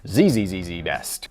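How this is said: The letter Z is said as zee.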